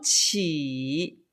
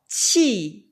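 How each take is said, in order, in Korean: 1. 이 음절은 내렸다 올라가는 3성이에요. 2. 이 음절은 떨어지는 4성이에요. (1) "중국식 보통화의 발음은 삼성이고요" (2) "치는 사성이에요"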